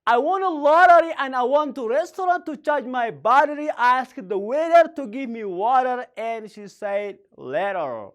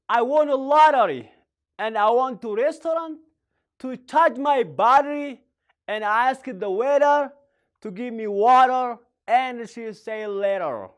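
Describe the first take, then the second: First: Tongue twister run together in longer phrases; repeated tongue twister. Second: Tongue twister demo. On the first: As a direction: link the phrases up, hold back only the final word. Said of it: "Now let's say again". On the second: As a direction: model it phrase by phrase for learners. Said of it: "I want to say one thank you, sir. Please try to just twist". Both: Shown as a demonstration.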